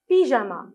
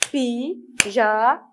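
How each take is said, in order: First: Said in the usual way. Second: "Pyjama" slowly split as py, ja, ma; "Pyjama" in three separate, stretched syllables. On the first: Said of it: "Combien de syllabes pyjama". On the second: Shown as a demonstration. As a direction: count out "Pyjama" with a gap after each syllable. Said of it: "Combien de syllabes?".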